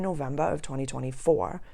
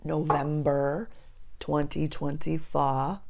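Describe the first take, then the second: First: Brief unintended accent slip on "November of twenty twenty-four". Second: Slow, deliberate "November twenty twenty-four"; careful re-take. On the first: Host reading out her workbook date, accidental accent slip. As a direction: let the accent slip on the month and year. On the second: Correcting her accent slip for viewers, slow careful re-take. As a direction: say each word of the date slowly and carefully. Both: Real, not acted. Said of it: "I don't know why my accent just did that".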